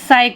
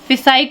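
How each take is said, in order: First: The initial p is silent. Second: The initial p is pronounced. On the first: The speaker calls it right. "साई को पढ़ेंगे" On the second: The speaker calls it wrong. "फिसाई को नहीं पढ़ेंगे"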